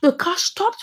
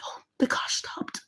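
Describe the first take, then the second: First: Said in the usual way. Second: Whispered, breath-held narration; hushed suspense. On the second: A narrator's reading. Storyteller watching the car stop near the woman, whispered suspense. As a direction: whisper it as the danger halts.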